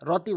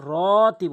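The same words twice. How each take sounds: First: "রতি" quick, first vowel unheld; wrong short RO. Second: "রতি" with a loud, held RO; slow emphatic long RO in "রতি"; correct long RO. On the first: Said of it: "রতি বলা যাবে না". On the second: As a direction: draw out the first vowel of "রতি". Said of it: "রতি বলতে হবে". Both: Shown as a demonstration.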